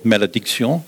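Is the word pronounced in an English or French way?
French. It is pronounced with French sounds. "or malediction, if you prefer"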